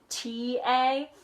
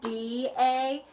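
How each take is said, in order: First: The syllable starts with a voiceless T sound. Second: The syllable starts with a voiced D sound. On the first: "some people pronounce it T A" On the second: "some people pronounce it Datev, like D A"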